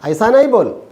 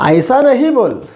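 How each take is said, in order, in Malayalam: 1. നിഷേധം 'nai' എന്ന് ചുരുക്കി പറയുന്നു. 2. നിഷേധം 'nahi' എന്ന് പൂർണ്ണമായി പറയുന്നു. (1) "പറയുമ്പോൾ നൈ നൈ എന്നൊക്കെ പറയാം" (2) "ഈ നഹി എന്നൊന്നും അല്ല പറയുക"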